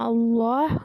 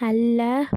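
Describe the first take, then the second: First: The L is heavy, with a full mouth. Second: The L is light and thin. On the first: The letter before has a fatha or damma. "நல்லா ஹெவியாக ஓதணும்" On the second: The letter before has a kasra. "கெஸ்ரா வரும்போது அல்ல ஓதணும்"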